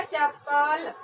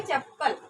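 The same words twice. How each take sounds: First: चप्पल drawn out with long vowels, chap-paal; split mispronunciation. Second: चप्पल short and joined, chap-pal, falling; correct pronunciation. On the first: Teacher contrasting two spellings, drawn-out mispronunciation. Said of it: "ये क्या हो जाएगा". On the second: Teacher giving the right reading, joined pronunciation. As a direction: say चप्पल with a doubled p and short final vowel. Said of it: "चप्पल का सही उच्चारण चप्पल". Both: Shown as a demonstration.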